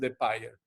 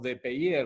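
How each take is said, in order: First: The name is pronounced with English sounds. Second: The name is pronounced with French sounds. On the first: "en Inglaterra es de Payer" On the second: "lo pronunciábamos en, en francés"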